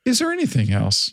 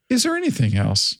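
First: It is said in a soft, warm tone. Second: The same.

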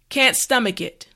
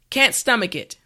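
The two takes are said the same way.

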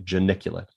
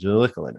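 First: The word is said clearly after a pause. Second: The word is slurred and run together. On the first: The speaker calls it right. "I have to pause before the G and say geniculate" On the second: The speaker calls it wrong. "I always sound like I'm slurring my words, like I have a subtle dysarthria"

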